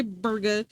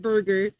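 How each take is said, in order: First: Burger drawn out as BUR-guh, final R dropped; non-rhotic BUR-guh, said slowly; R-less burger. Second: Burger with both R sounds fully pronounced; hard R. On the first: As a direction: end burger on a plain uh. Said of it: "how to say burger". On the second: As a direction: say burger the American way, R's held firm. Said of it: "like, a hard burger". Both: Shown as a demonstration.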